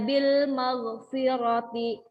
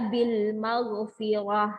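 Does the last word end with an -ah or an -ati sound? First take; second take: -ati; -ah. First: The last word ends with a full -ati ending. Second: The last word ends with a short -ah sound. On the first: The phrase is read as written, in connected speech. "Tulisannya bil maghfirati" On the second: The reader stops at this word. "maka dibaca bil maghfirah"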